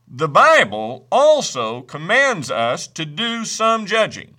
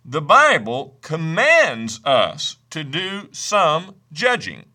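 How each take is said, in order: First: Said in the usual way. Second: Slow, with weight on the word judging; stress on judging. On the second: Shown as a demonstration. Preacher stressing judging for the congregation. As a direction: lean into judging so it lands. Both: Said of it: "Let me stress that word again".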